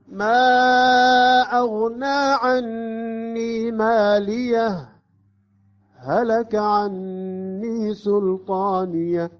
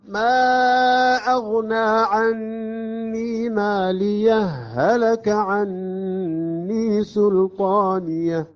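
First: A brief pause follows ماليه before هلك. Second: ماليه merges into هلك with a doubled h.

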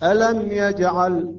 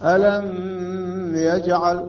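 First: The m is short with no nasal hum. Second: The m is held long with nasal hum. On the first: The speaker calls it right. "إظهار بدون غنة وبدون حركتين" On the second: The speaker calls it wrong. "هذا غلط"

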